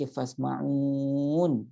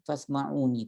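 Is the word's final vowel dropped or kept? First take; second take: dropped; kept. First: The word ends without its final vowel. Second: The word ends with its final vowel sounded. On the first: The reading stops at this word. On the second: The reading continues without stopping.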